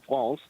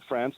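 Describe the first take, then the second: First: The name has a French pronunciation. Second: The name has an English pronunciation. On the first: This is the name in the country's own language. "not France" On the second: This is the usual name in America. "We call it France"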